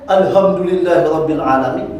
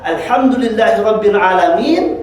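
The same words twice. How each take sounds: First: The Arabic sounds are articulated sloppily. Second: The Arabic sounds are articulated precisely. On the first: All destruction belongs to God. The speaker calls it wrong. "Yang ini tahsinnya juga tidak benar ya" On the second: All praise belongs to God, Lord of the worlds. The speaker calls it right. "Tahsinnya benar"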